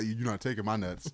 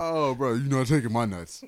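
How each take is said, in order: First: Lower, softer defiant kangaroo voice; a quiet, defiant growl; kangaroo impression. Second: Lightly voiced defiant kangaroo; defiant kangaroo, barely put on; kangaroo impression. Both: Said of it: "Do your kangaroo impression again".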